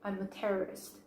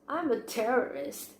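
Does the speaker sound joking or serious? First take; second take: serious; joking. First: It is said in a serious, earnest tone. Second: It is said in a light, joking tone. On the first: The statement is meant literally. "the first one actually sounds quite serious" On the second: The statement is meant as a joke. "you can clearly distinguish the second one as being a joke"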